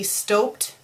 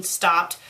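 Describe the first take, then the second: First: "stopped" said as "stoped", with a long O; misread with long O. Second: Said in the usual way. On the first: Shown as a demonstration. Reader mocks the fanfic's typo, long O in "stopped". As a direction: say "stopped" to rhyme with "hoped". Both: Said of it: "don't you mean stopped".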